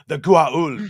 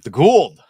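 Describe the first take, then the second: First: The name is said in its full form. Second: The name is said in a clipped form. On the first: "they say it like the right way" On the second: "by the end they're like"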